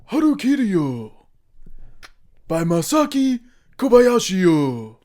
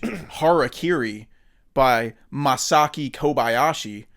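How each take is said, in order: First: It is said in an exaggerated Japanese-style accent. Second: It is said in a plain English accent. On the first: It shows respect for the culture. The speaker calls it right. "I gotta respect their culture" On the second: It is disrespectful to the culture. The speaker calls it wrong. "that's disrespectful"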